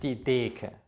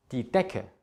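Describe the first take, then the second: First: Deke with a long drawn-out e, slowly; wrong long e. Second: Die Decke with a short, clipped e. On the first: Teacher demonstrates the wrong long vowel. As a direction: stretch the e in Deke as a wrong example. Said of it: "nicht die Deke". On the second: Teacher shows the short vowel in Decke. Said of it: "Es ist also". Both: Shown as a demonstration.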